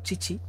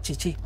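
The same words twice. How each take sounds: First: The stress is on the first syllable. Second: The stress is on the last syllable. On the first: "en vez de ser chichi" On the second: "lo pusieron el acento en la aguda"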